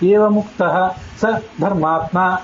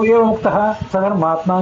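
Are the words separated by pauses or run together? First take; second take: pauses; run together. First: Short pauses separate sa from the words around it. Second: Sa runs into dharmatma with no pause. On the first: Sa and dharmatma are separate words. The speaker calls it right. "ಏವ ಮುಕ್ತ ಅದಾದ್ಮೇಲೆ ಸ್ವಲ್ಪ gap, ಸ ಆದ್ಮೇಲೆ ಸ್ವಲ್ಪ gap" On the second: Sadharmatma is treated as one compound word. The speaker calls it wrong. "ಸಧರ್ಮಾತ್ಮ ಅನ್ನೋದು ಒಂದೇ ಪದ ಅಂತ ನೀವು ಭ್ರಮಿಸಿದ್ದೀರಿ"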